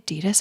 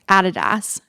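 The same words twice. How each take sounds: First: It is said the non-Australian way. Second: It is said the Australian way.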